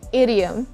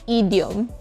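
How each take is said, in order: First: The first vowel is a relaxed short 'i' sound. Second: The first vowel is a tense 'ee' sound. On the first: The speaker calls it right. "Say idiom" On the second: The speaker calls it wrong. "and not idiom"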